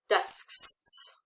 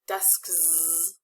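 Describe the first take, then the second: First: The word ends with a hissing s sound. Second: The word ends with a buzzing z sound. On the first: The speaker calls it right. "That's pretty easy" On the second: The speaker calls it wrong. "It's kind of tricky"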